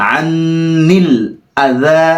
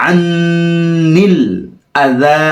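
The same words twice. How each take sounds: The two takes are said the same way.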